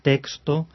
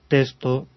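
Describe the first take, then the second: First: The x is pronounced as k plus s. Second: The x is pronounced as a plain s. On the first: The speaker calls it wrong. "en pronunciaciones muy enfáticas o muy esmeradas, podemos ir ya a una K y una S" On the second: The speaker calls it right. "se pronunciaba, ya desde hacía siglos"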